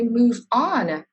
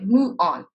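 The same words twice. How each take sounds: First: The v and the next vowel stay separate. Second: The v sound is left out entirely. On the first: "We don't say" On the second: "they drop the v sound"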